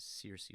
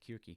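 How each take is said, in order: First: The name begins with a soft s sound. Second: The name begins with a hard k sound. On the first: This is the common English pronunciation. "often pronounced as Circe with a C" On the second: This is closer to the Greek pronunciation. "the Greek is more like Kirke"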